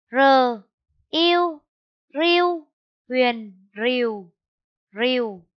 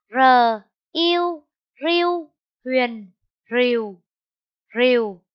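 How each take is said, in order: First: Spelling out again. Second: Spelling out. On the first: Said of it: "Cô đánh vần lại nhé". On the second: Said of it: "Cô đánh vần là". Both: Shown as a demonstration.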